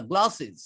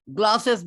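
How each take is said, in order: First: গ্লাসেস ending in "iz"; গ্লাসেস with a light i and a z; correct ending. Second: গ্লাসেস with a hissed "es"; গ্লাসেস ending crisp s; wrong ending. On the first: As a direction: say গ্লাসেস as "glas-iz". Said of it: "শেষে বর্গীয় জয়ের উচ্চারণ হবে". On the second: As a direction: say গ্লাসেস as "glas-es". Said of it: "গ্লাসেস না". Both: Shown as a demonstration.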